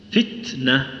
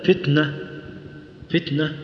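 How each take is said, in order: First: Slow "فتنة" with ت held, then breath released before ن; in "فتنة", stop on ت, puff, then say ن; deliberate "فتنة" split after a breathed ت; corrected ت. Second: "فتنة" with the ت let out through the nose into ن; faulty "فتنة", ت swallowed into the ن; wrong nasal-release ت. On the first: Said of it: "احبس الصوت ثم اجري". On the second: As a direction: say "فتنة" with no breath from the mouth on ت, air escaping by the nose. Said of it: "يخرج هواء من الأنف". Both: Shown as a demonstration.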